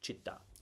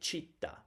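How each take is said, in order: First: The stress is on the last syllable. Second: The stress is on the first syllable. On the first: The speaker calls it right. "but it's città, obviously" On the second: The speaker calls it wrong. "I would normally say città"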